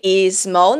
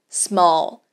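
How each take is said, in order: First: An extra vowel sound comes before the s. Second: The word starts directly with the s sound. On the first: The speaker calls it wrong. "A gente não vai falar is small. Ok? Is small, não" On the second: The speaker calls it right. "nós não temos que adicionar nenhum som"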